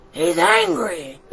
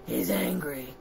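First: Higher, slower, drawn-out anger; mock angry. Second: Soft, low-pitched statement; low and quiet. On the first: Reader repeating the monster's anger to children, mock angry. Same words repeated with more force. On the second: Reader introducing the angry monster to children, low and quiet. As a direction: say it low and softly. Read low, then escalated louder. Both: A narrator's reading.

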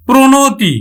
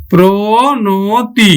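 First: Said in the usual way. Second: Drawn out. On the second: Shown as a demonstration. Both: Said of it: "আমরা উচ্চারণ করব কিন্তু".

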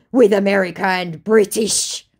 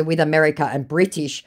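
First: Loud, higher-pitched declaration; mock indignant scammer. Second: Said in the usual way. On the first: Scammer widening his grievance, mock indignant. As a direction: proclaim it grandly.

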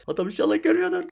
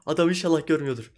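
First: Same words repeated far higher, pleading; tense high-pitched hope the enemy doesn't see; squeaky high plea. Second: Said in the usual way. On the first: Real, not acted. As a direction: squeak it out like a nervous prayer. Hoping the enemy misses him.

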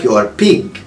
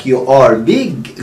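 First: "pig" with a puffed p; voiceless p in pig; p sound. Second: "big" with a clear voiced b; b sound. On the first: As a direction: pop the p in pig. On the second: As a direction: hit the b in big. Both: Shown as a demonstration. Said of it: "غير لما اقول لك".

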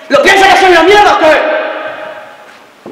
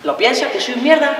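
First: High, drawn-out yell; explode, stretching the question into a slow roar; furious shout. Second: Higher-pitched but held-back challenge; tense probing question. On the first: Boyfriend demanding if she despises him, furious shout. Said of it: "hablándome de esta manera". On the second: Boyfriend testing whether she despises him, tense and restrained. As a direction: ask it high and contained, before any shouting. Quarrel, question before it explodes. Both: Acted.

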